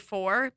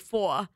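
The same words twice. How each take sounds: First: It is said with a standard accent. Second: It is said with a Rhode Island accent.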